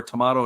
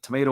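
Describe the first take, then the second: First: "tomato" with an AH in the middle; British-style "tomato", middle as in spa; tuh-MAH-toh pronunciation. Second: "tomato" with a long A; American-style "tomato", middle rhyming with day; tuh-MAY-toh pronunciation. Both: Shown as a demonstration. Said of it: "depending upon where you're from".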